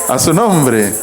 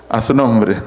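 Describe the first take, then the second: No difference in how they are said.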